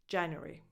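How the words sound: The word is said with three syllables. "British English, with just three syllables instead of four"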